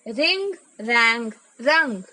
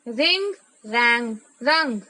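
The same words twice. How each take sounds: The two takes are said the same way.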